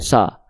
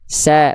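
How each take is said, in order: First: The a vowel sounds thick and dark. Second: The a vowel sounds thin and bright. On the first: The speaker calls it wrong. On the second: The speaker calls it right. "buka mulutnya sedikit senyum"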